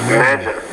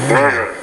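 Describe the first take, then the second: No difference in how they are said.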